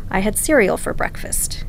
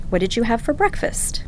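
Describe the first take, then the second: First: "I had cereal for breakfast" falling at the end; falling statement. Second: "What did you have for breakfast?" rising at the end; rising question. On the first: Linguist demonstrating statement intonation, falling. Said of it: "my voice goes down at the end". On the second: Linguist demonstrating question intonation, rising. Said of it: "your voice goes up at the end". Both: Shown as a demonstration.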